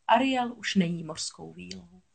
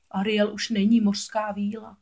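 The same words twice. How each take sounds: First: Said in the usual way. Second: A touch of sorrow; mildly sad. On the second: A narrator's reading. Crab telling a friend Ariel has changed, mildly sad. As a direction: report it with understated regret. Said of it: "řekl smutně Sebastián".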